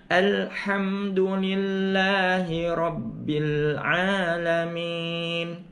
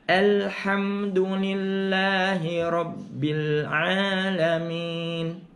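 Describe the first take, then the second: No difference in how they are said.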